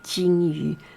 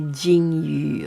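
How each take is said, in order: First: The first consonant sounds like an English 'ch'. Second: The first consonant sounds like an English 'j'. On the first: The speaker calls it right. "J sound like C H too" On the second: The speaker calls it wrong. "We do not say 金鱼"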